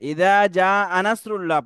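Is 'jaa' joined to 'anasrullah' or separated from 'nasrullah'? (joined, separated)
joined. The vowel runs straight into one word 'anasrullah'. It means 'I am helping'. The speaker calls it wrong. "Maximum ইমাম সাহেবরা আনাসরুল্লাহ আনাসরুল্লাহ"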